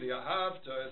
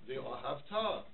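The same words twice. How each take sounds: First: The stress falls on the second-to-last syllable. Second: The stress falls on the last syllable. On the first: It tells of a past love for God. The speaker calls it wrong. "they say" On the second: It commands love for God in the future. The speaker calls it right. "What's the correct pronunciation?"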